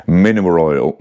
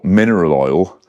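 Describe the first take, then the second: First: "mineral oil" with the middle syllables slurred together; tongue-tripped. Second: "mineral oil" re-said carefully, each syllable distinct; careful correction. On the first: Reviewer tripping over "mineral oil" early in the morning, slurred. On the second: Reviewer correcting his stumble on "mineral oil", carefully articulated. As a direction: separate "mineral" cleanly from "oil". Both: Real, not acted. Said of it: "You try saying it".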